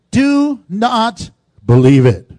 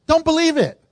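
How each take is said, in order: First: "do not believe it" slow and loud, each word weighted; a slow, loud pulpit warning; solemn warning. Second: "Don't" punched higher and quicker; plain emphatic repeat to the congregation. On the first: Shown as a demonstration. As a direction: lean on "do" like scripture read aloud. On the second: Real, not acted. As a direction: throw "Don't" at them as a personal warning.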